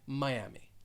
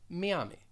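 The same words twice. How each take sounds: First: It is said with an American English pronunciation. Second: It is said with a Spanish pronunciation. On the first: "most people throughout the United States will just say Miami" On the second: "Spanish speakers may pronounce it as Miami"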